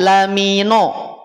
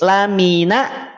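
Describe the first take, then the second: First: The n syllable is heavy with a dark o vowel. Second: The n syllable is light with a clear a vowel. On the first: The speaker calls it wrong. "nun jangan dulu tebal ... Tidak lamino" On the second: The speaker calls it right. "pastikan tipis. Nun itu tipis"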